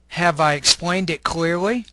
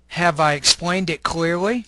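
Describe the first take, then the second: First: Each word is said fully and separately. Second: Each word is said fully and separately.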